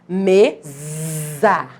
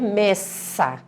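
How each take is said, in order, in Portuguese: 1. A consoante do meio é um som de Z, sonoro. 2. A consoante do meio é um som de S, sibilante. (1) "O Szinho fica com o som Z" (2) "se eu quisesse o sonzinho S"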